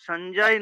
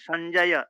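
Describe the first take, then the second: First: The name ends on a bare consonant sound. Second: The name ends with a final a vowel. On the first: The speaker calls it wrong. "সঞ্জয় নয়" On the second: The speaker calls it right. "অকারান্ত সব, ওই ওই হসন্ত না থাকলে হসান্ত বলা যাবে না"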